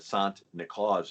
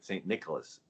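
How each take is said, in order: First: The name is said with Dutch pronunciation. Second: The name is said with English pronunciation.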